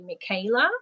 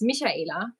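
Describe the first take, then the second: First: The name is said with an American pronunciation. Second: The name is said with a non-American pronunciation. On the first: This is how Americans usually say it. The speaker calls it wrong. "Americans say Michaela" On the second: This is how the name is really said. The speaker calls it right. "It's Michaela"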